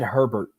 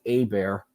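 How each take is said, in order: First: It begins with 'her', with an r sound. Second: It begins with 'ay', with no r sound. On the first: An outsider got the name wrong. The speaker calls it wrong. "He said Herbert" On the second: This is how locals say the name. The speaker calls it right. "if being from Louisiana, we pronounce it A Bear"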